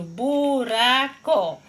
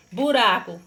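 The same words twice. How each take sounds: First: BURACO split into bu, ra, co; slow teacher's demonstration of BURACO, each syllable separate. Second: Said in the usual way. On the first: Shown as a demonstration. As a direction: sound out "buraco" in three drawn-out beats. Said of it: "você vai abrir sua boca três". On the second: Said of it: "Quando eu pronuncio buraco".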